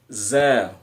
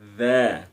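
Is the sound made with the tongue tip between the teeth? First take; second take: no; yes. First: The consonant is a plain buzzing z sound. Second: The consonant is made with the tongue tip forward. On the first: The speaker calls it wrong. "bukan za" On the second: The speaker calls it right. "za di ujung lidah"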